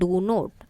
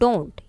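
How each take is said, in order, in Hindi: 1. यह दो पूरे शब्दों के रूप में बोला जाता है। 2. यह एक संकुचित शब्द के रूप में बोला जाता है। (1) "expanded form" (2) "contracted form of the verb while speaking"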